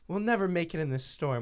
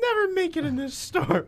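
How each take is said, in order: First: It is said in a toned-down, restrained way. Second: It is said in an exaggerated, overdone way.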